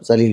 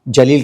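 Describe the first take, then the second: First: The word begins with a 'z' sound. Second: The word begins with a 'j' sound. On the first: Someone is humiliated. "जाके नीचे नुक्ता लगाना जरूरी होता है" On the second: Someone is brave or great. "जलील का मतलब बहादुर होता है"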